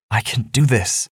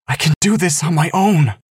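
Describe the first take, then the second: First: Said in the usual way. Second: Almost yelling. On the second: Acted. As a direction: rise to an angry half-yell. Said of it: "Angelita's voice rose, almost yelling".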